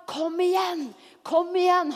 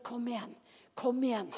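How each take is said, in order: First: Higher-pitched, eager coaxing; urging encouragement. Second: Soft, understated encouragement; a still inner voice, coaxing softly; gentle quiet prompting. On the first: The Holy Spirit urging a believer on, eager encouragement. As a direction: urge them on energetically. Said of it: "Han er en gentleman". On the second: The Holy Spirit prompting from within, gently and softly. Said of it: "stille stemmen i vårt indre". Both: Acted.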